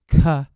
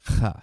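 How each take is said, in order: First: A k sound with a puff of air. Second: A raspy ch sound without a full stop. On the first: "like a K, the kappa, with a puff of air after it" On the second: "ch is more of the modern pronunciation"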